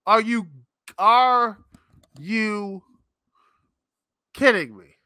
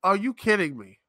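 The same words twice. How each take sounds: First: Are you, are you kidding me? split into slow separate words, loud punch on kidding; drawn-out incredulous stress. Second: Said in the usual way. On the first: Retold or imitated. Advertiser mocking wrestling's ad pitch, slow stressed disbelief. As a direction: spell out each word in disbelief. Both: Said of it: "you say".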